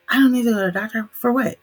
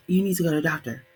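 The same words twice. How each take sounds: First: Higher, louder and fast mock dad protest; an imitated dad, pitched up and quick, brushing off the doctor; stubborn dad. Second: Said in the usual way. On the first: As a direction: rattle off the refusal like an offended father.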